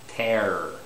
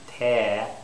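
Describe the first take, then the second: First: The final R is clearly pronounced. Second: The R is dropped and the vowel lengthened. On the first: "in Canadian and most American English dialects, it's tear" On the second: "tear would be like English English"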